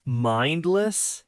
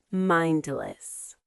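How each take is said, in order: First: Mindless? echoed with a rising question tone; repeating word. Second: Mindless said cleanly with a falling close; model word. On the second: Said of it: "The first word is mindless". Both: Shown as a demonstration.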